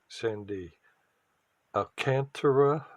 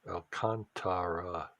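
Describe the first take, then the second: First: The stress falls on the syllable 'tar'. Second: The stress does not fall on 'tar'. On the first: The speaker calls it wrong. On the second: The speaker calls it right.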